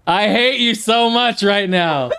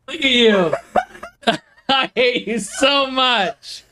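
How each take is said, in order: First: Said in the usual way. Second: Laughing. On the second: Real, not acted. Laughing after being scared.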